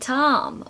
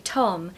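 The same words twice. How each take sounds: First: Tom is said with an American open vowel. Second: Tom is said with a British short O.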